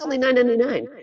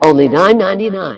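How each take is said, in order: First: It sounds casual, like answering a friend. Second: It sounds stiff, like reading ad copy. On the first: It answers an unspoken question. The speaker calls it right. "naturalize it because you're responding" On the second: It is read out as ad copy. The speaker calls it wrong. "Nobody talks like that"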